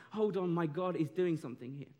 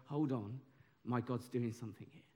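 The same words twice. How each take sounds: First: Said in the usual way. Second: "Hold on, my God's doing something here" said softer and lower, hushed; quiet trusting aside. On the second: Shown as a demonstration. Preacher showing the congregation a quiet, trusting response. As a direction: murmur it like a private realisation. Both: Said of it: "look at stress and go".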